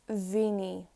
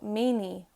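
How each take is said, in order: First: The word begins with a v sound. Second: The word begins with an m sound.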